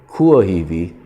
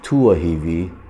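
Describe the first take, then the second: First: It begins with a K sound, standard Hawaiian. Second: It begins with a T sound, Niihau dialect.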